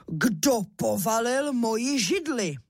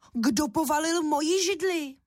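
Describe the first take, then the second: First: Slow, a touch of a booming papa bear; big bear shout. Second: Higher, cross mother bear; mama bear voice. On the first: Papa bear finding his chair knocked over, slow mild bear roar. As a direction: drag it out like a lightly voiced big bear. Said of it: "rozkřičel svým silným medvědím hlasem". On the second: Mama bear finding her chair on the floor, higher cross call. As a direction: scold like an indignant mama bear. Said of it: "rozkřičela hlasem medvědí maminky". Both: A narrator's reading.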